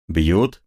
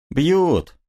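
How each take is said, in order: First: Said in the usual way. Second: Short confirming answer, much higher voice. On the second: Acted. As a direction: answer it high and flat. Answer to streltsy question. (мастеровой отвечает стрельцам высоким голосом)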